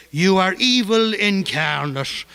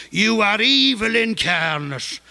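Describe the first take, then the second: First: Put-on slow, higher Monaghan accent, leaning on evil. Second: Put-on higher, slow Monaghan accent, falling on evil. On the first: Kavanagh yelling across the street at Behan, Monaghan accent. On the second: Kavanagh insulting Behan across the street, Monaghan accent. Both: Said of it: "in that Monaghan accent".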